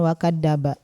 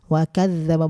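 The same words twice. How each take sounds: First: The dh sound is a plain z without tongue contact. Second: The dh sound has the tongue against the teeth. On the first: The speaker calls it wrong. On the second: The speaker calls it right. "zalnya harus nempel ke sini"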